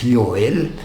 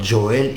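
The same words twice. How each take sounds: First: The name begins with a Y sound. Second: The name begins with an English J sound. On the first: The speaker calls it right. "it's Joel. The letter J in Latin is J, so it is pronounced as Y" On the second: The speaker calls it wrong. "so it's not Joel"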